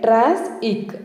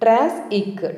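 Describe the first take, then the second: The two takes are said the same way.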